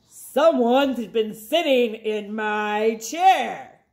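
A low grumbling Papa Bear voice.

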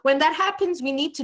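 It is spoken in a natural American accent. "let me use my normal accent"

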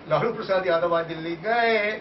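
The stress falls on the word gaye. He has finally gone, to the speaker's relief. "Thank God."

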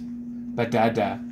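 It is said with a blocked, stuffed-up nose. The speaker has a cold. "my pictures after a cold"

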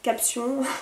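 It is pronounced the French way.

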